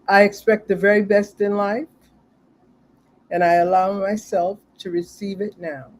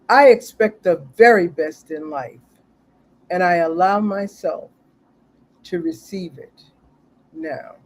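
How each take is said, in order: First: It is said in a plain, ordinary way. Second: It is said with strong conviction.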